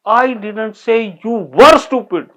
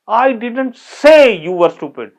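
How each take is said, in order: First: The word were carries the stress. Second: The word say carries the stress. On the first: The listener is still stupid now. "You are stupid." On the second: It was thought but not said aloud. "मुझे पता है पर मैंने कहा नहीं।"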